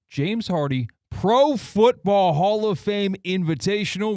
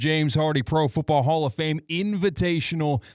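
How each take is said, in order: First: The name is said slowly and deliberately. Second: The name is said at a quick pace.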